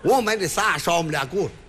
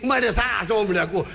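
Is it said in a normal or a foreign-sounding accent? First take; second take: normal; foreign-sounding. First: It is said in a normal Beijing voice. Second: It is said fast with a put-on foreign accent.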